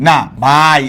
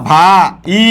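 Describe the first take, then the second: First: "ভাই" glided as one syllable, আ and ই joined; correct single syllable. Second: "ভা ই" said as two separate syllables, a gap between ভা and ই; wrong split syllables. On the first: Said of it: "আই, এটা আই উচ্চারিত হচ্ছে". (ভাই এক অক্ষরে টেনে একসাথে বলা) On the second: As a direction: break ভাই apart into ভা then ই. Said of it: "তুমি কি বলবা ভা ই". (ভাই শব্দটি ভা আর ই আলাদা করে ভেঙে বলা) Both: Shown as a demonstration.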